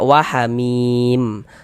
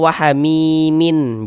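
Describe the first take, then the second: First: The word ends on a bare m sound. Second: The word ends with an added in syllable. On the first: The reader stops at the end of the verse. The speaker calls it right. "kalau kita berwakaf di huruf mim, kita baca wahamim" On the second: The word is read as if the reading continues. The speaker calls it wrong. "Jangan dibaca wahamimin, jangan"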